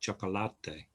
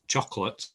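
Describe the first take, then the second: First: It is said with Spanish pronunciation. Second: It is said with English pronunciation. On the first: "what would it be in Spanish? ... absolutely" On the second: "it isn't chocolate in Spanish"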